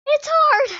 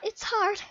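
First: Higher, louder protest; emphatic outcry. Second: Said in the usual way. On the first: Real, not acted. Gamer insisting to viewers on how hard it is, emphatic outcry.

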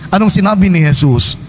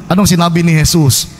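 No difference in how they are said.

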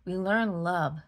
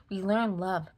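Both takes have the same delivery.

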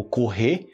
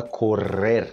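First: "correr" with the final R dropped; softened final R. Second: Slow "correr" with rolled Rs; marked Spanish R. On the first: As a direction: end "correr" on an open stressed e. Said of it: "o R no final é mais suave". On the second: Teacher contrasts the verb in Spanish, marked-R demonstration. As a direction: roll both Rs in "correr", slowly. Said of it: "o R no final é muito marcado". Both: Shown as a demonstration.

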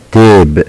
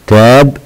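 First: تيب drawn out with "ay", like "tape"; long a name sound. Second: تاب with an open short "a", like "tap". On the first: Teacher contrasting two words, long a. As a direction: say تيب using the letter's name. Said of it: "ننطق الأ الطويلة كاسمها". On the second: Teacher contrasting two words, short a sound. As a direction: say تاب using the letter's sound. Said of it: "صوتها ليس كاسمها". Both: Shown as a demonstration.

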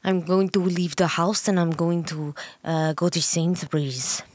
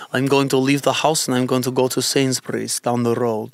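First: Halting copy of a Russian accent; attempted Russian accent. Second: Russian accent. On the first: Partner copying host's accent, shaky attempt at Russian accent. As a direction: badly imitate a Russian accent. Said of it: "I have to impersonate it". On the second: Host demonstrating a Russian accent for partner to copy, Russian accent. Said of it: "if I was to do a Russian accent". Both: Shown as a demonstration.

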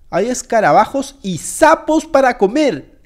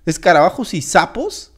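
First: Slow, horrified reveal of the menu; appalled announcement. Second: Lower-pitched incredulous question, rising at the end; disbelieving echo. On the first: Player tells viewers what is for dinner, appalled. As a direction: spell out the revolting food, hammed-up. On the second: Guest questions the menu, incredulous. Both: Acted.

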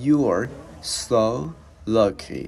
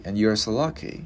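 First: "You are... so... lucky" drawn out with pauses; slow teaching model, each word set apart. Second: "and you are so lucky" linked in one smooth phrase; glided through. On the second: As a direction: say it straight through at a natural pace. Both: Shown as a demonstration. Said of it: "Bây giờ mình đi lướt cái câu này".

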